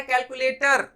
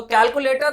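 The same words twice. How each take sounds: First: कैलकुलेटर ending in a clear "tar"; full final r. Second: First कैलकुलेटर ending in "tuh"; r shortened. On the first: Teacher giving what listener understood, कैलकुलेटर with full r. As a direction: sound the r at the end of कैलकुलेटर. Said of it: "समझ में आ गया कि आपने मांगा". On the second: Teacher quoting a shop request, कैलकुलेटर without r. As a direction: leave the final r off कैलकुलेटर. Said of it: "र को इतना छोटा बोला". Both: Shown as a demonstration.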